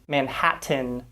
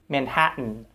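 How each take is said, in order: First: The T is a fully released T sound. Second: The T is cut off as a glottal stop. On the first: The speaker calls it wrong. "We don't say" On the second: The speaker calls it right. "but we tend to say"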